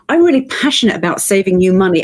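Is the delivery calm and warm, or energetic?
energetic. It is said in a lively, high-energy way. The speaker is championing people. "Look at her energy"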